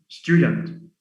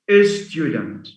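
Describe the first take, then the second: First: The word begins directly with the s sound. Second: An extra vowel is added before the word.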